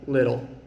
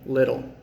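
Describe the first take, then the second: No difference in how they are said.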